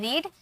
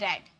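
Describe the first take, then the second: First: It is said with a long vowel, like reed. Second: It is said with a short vowel, like red. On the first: It is the present form of the verb. "First form में रीड" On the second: It is the past form of the verb. "Second और third form में रेड"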